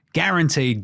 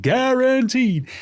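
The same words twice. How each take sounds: First: Said in the usual way. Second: "guaranteed" drawn out very slow and high; emphatic repeat. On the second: Real, not acted. Podcaster stresses the playoff spot prize, "guaranteed" drawn out high. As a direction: stretch "guaranteed" out long and sing-song. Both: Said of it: "repeated for emphasis".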